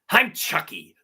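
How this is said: It is said in a menacing, evil voice. "I did the evil"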